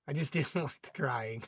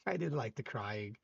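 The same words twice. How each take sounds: First: Laughing. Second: Much softer, lower, tossed-off repeat; softer and lower muttered repeat; muttered aside. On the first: Joking reply to comment. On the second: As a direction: say it again under your breath as a dry aside. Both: Real, not acted.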